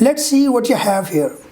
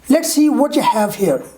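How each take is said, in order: First: The words are reduced and run together. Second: The words are reduced and run together.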